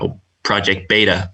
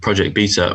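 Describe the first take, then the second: First: It is said with an American pronunciation. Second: It is said with a British pronunciation.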